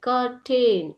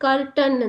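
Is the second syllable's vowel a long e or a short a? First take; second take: long e; short a. First: The second syllable has a long e vowel. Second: The second syllable has a short a vowel. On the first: "ಎ" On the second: "ಕೆಲವೊಂದ್ಸಲಿ ಕರ್ಟನ್ ಅಂತಾನು ಓದ್ತಾರೆ"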